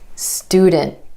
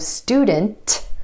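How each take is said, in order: First: The T after N is held, not released. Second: The T after N is released with air. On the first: The speaker calls it right. "My tongue stays up for the T sound after the N" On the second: The speaker calls it wrong. "Instead of student"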